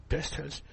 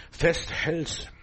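First: Festhältst repeated much softer for weight; quiet emphatic echo of Festhältst. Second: Said in the usual way. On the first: Shown as a demonstration. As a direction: let the word sink in quietly.

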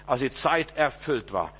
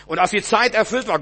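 First: Slow solemn reading. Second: Proclaimed loudly. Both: Shown as a demonstration. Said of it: "repeated scripture line".

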